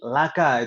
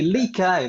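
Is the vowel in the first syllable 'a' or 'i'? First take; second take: a; i. First: The first syllable has the vowel a. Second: The first syllable has the vowel i. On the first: The speaker calls it right. "lebih uh, mudah untuk diucapkan" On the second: The speaker calls it wrong. "susah berat diucapkan dan aneh"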